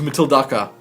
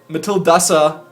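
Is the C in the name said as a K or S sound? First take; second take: K; S. First: The C is said with a K sound. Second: The C is said with an S sound. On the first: "Don't say the C like a K" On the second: "say C is like a S"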